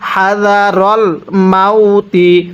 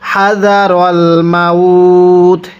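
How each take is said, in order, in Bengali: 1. শেষ শব্দটি একটি ছোট ই-স্বরধ্বনি দিয়ে শেষ হয়। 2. শেষ শব্দটি ত ব্যঞ্জনের উপর শেষ হয়।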